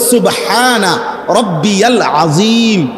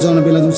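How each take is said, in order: First: The middle word is pronounced in full. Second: The middle word is clipped short. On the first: The speaker calls it right. "শব্দ হইল" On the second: The speaker calls it wrong. "সুবহানা বিল আযীম কিতা?"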